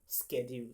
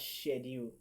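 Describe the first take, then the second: First: It is said the American way. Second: It is said the British way, starting like 'shed'. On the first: The speaker calls it wrong. "Schedule is the pronunciation in American English" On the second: The speaker calls it right. "the correct pronunciation is schedule. All right, which is just like saying shed and you put together"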